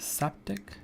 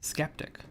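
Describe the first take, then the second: First: The word starts with a plain S sound. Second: The word starts with an SK sound. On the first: "that's how I read it at first" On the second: "I want to pronounce it skeptic"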